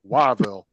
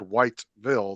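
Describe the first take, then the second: First: The name is said with no T sound. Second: The name is said with a clear T sound. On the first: This is how the locals say the name. "the T and the E were completely fucking absent from that word" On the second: This is how an outsider says the name. "nobody said Whiteville"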